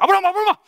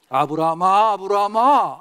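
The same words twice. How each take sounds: First: It is called fast and urgently, Gyeongsang style. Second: It is called slowly, Chungcheong style.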